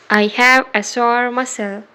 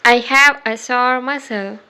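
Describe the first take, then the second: No difference in how they are said.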